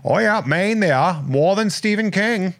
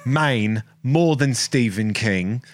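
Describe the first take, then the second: First: Higher, hammed-up Maine accent; a playful, hammed-up Maine accent. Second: Slow, drawn-out Maine accent; a light Maine accent, slowed down. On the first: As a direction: ham up a Maine local. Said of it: "I can do that in a Maine accent". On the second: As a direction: drawl it out like a Maine local. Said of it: "that's my Maine accent". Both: Shown as a demonstration.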